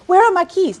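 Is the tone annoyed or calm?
annoyed. It is asked in an annoyed, demanding tone.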